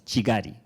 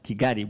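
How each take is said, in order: First: The name begins with a ch sound. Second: The name begins with a hard k sound. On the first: This is how it should properly be said. The speaker calls it right. "it should be pronounced as Chigari" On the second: This is how outsiders usually say it. The speaker calls it wrong. "we pronounce it as Kigali"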